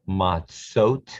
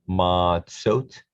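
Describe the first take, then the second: Both takes have the same delivery.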